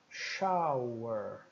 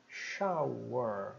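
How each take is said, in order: No difference in how they are said.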